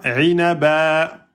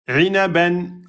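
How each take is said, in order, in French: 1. Le mot se termine sur une voyelle allongée. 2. Le mot se termine par un son n.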